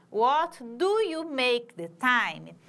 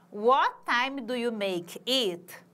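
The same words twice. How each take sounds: First: "do" pushed out, slow and a bit louder; stress on do. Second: Slow model question, each word clear; slow demo. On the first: Teacher showing students where the verb moved, stressing do. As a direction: lean on "do" to show it moved. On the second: Teacher contrasting word order for students, slow and careful. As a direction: lay it out slowly for comparison. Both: Shown as a demonstration. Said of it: "Tá vendo que ele muda de posição?".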